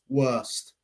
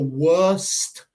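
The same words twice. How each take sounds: First: The final T is soft and barely heard. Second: The final T is released strongly and clearly. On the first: "en mi acento normal" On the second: "Por eso en esta clase estoy con énfasis para ayudaros"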